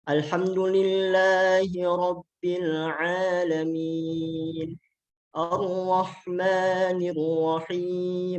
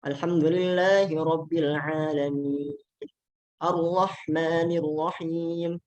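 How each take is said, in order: First: It is recited at a moderate pace. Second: It is recited at a very fast pace. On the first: "Nah itu at-tadwir. Jadi uh, lebih cepat dari at-tartil" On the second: "Al-hadr uh, yang paling cepat"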